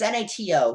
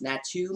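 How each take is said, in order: First: "N A T O" read letter by letter; N A T O as four separate letters; spelled out. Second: "nato" said as one word, unsure rising end; nato, tentative and rising. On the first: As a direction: spell out N A T O one letter at a time. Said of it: "it's N A T O". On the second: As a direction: try "nato" as a single word, questioning. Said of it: "I don't even know that's how it's pronounced". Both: Shown as a demonstration.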